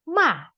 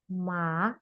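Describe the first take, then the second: First: The pitch falls sharply from high. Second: The pitch rises from low to high. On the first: "seperti orang marah" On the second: "agak lebih dari bawah ke atas"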